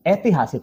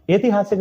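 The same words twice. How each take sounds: First: ऐतिहासिक with open "ai" at the start; correct ai vowel. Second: ऐतिहासिक with plain "e" at the start; wrong vowel. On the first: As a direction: say ऐतिहासिक as "ai-tihasik". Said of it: "ऐतिहासिक होता है". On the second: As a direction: say ऐतिहासिक as "e-tihasik". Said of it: "नहीं होता है". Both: Shown as a demonstration.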